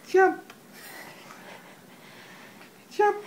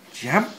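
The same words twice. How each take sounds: First: High squeal. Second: Said in the usual way. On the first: Acted. Frog jumping game with baby.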